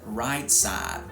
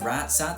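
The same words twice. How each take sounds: First: Only 'side' has a flat vowel; 'right' glides. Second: Both words have a flat, single vowel. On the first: This is how such speakers actually talk. "they do glide reduction and monophthongization before the voiced consonant, but not before the voiceless one" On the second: This is how such speakers are assumed to talk. "Instead of right side"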